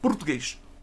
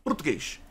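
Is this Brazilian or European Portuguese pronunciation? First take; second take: European; European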